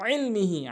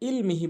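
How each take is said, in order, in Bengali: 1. শব্দটি গভীর গলার ব্যঞ্জন দিয়ে শুরু হয়। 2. শব্দটি সাধারণ হামজা দিয়ে শুরু হয়। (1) "আইনের উচ্চারণ করতে হবে" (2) "এরপরে ইলমিহি বলে"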